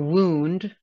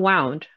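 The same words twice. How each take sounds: First: The vowel is an oo sound, as in soup. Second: The vowel is not the oo sound. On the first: The speaker calls it right. "O U, like group, soup, or wound" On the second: The speaker calls it wrong. "not wound"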